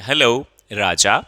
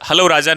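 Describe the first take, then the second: First: There is a short pause after 'hello'. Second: It is said in one go without a pause. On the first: The speaker calls it right. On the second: The speaker calls it wrong.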